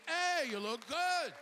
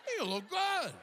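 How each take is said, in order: First: High, drawn-out amazed greeting; surprised compliment. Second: Very high, squealed mock astonishment; exaggerated surprise. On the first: Retold or imitated. People greet the aging comic, surprised high-pitched compliment. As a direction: gush it slowly, high in the voice. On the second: Comic exaggerates how people compliment him, squealed disbelief. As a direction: leap way up as if you can't believe it. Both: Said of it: "they say it with a kind of surprise".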